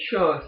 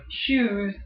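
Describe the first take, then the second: First: "shoes" with a rounded "oh", almost "shows"; rounded Yooper vowel. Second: Said in the usual way. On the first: Shown as a demonstration. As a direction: round "shoes" toward "shohs". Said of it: "the Yooper accent makes them more rounded". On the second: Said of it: "Instead of shoes".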